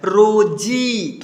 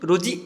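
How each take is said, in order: First: The final vowel is drawn out long. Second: The final vowel is cut short. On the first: The speaker calls it right. "थोड़ा खींच करके आ रहा है" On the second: The speaker calls it wrong. "थोड़ा सा कम कीजिएगा तो ये कोई शब्द बनता है?"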